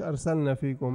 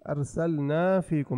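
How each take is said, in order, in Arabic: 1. يُقصَر حرف المد. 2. يُمَدّ حرف المد مدًّا كاملًا. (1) "مش أرسلنا فيكم" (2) "نبين حرف المد"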